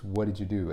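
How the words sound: The words run together as one chunk.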